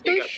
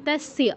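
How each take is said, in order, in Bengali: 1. শব্দটি 'ai' আর 'sh' ধ্বনি দিয়ে বলা হয়। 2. শব্দটি 'a' আর 's' ধ্বনি দিয়ে বলা হয়। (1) "তৈশ্য নয়"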